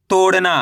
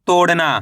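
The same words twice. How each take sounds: The two takes are said the same way.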